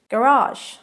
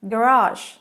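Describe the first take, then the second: First: It is pronounced the American way. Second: It is pronounced the American way.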